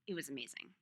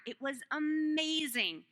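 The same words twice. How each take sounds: First: "It was amazing" dropped lower and softer; hushed, much lower "It was amazing"; soft echo. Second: Slow, drawn-out "amazing"; slow, stressed "It was amazing"; emphatic. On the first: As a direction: murmur it back to yourself. Echoed softly. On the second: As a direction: lean into "amazing" with wonder. Repeated for emphasis. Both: Real, not acted.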